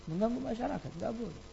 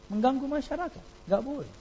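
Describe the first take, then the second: First: Mengganggu masyarakat repeated much softer; softer echo. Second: Mengganggu masyarakat said higher, firm; firm reproach. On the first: Preacher echoing his rebuke, dropping to a murmur. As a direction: let the rebuke fade into a murmur. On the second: Preacher scolding noisy neighbours, firm and raised. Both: Shown as a demonstration. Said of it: "repeats it quieter".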